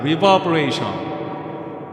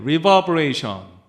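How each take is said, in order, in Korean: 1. 목소리에 크고 과장된 공간 리버브가 걸려 있어요. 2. 목소리에 자연스럽고 适度한 방 리버브가 걸려 있어요. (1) "백으로 하면은 당연히 ... 말도 안 되는 그 지경에까지" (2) "내추럴이라고 해놨는데"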